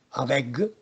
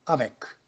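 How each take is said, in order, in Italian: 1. La consonante finale è una g sonora. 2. La consonante finale è una k sorda.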